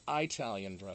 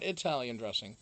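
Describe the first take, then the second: First: It is said with the local regional pronunciation. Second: It is said with the speaker's usual pronunciation. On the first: This is how people here say it. "but Italian dressing" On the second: This is how the speaker normally says it. "not Italian dressing"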